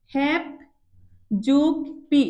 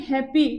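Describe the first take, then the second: First: "হ্যাপ যোগ পি" with a long pause after হ্যাপ; word broken up. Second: Said in the usual way. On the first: Shown as a demonstration. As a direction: set "হ্যাপ" and "পি" apart as beats. ("হ্যাপ যোগ পি" ভেঙে ভেঙে) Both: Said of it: "এটাকে ভাঙো".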